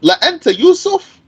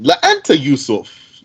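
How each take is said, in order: First: "La anta Yusuf" pitched very high, held up to the end; high, emphatic "La anta Yusuf"; exclamatory emphasis. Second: "La anta Yusuf" at normal pitch with a closing fall; statement tune. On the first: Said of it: "exclamation point". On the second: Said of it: "even if it were a statement". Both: Shown as a demonstration.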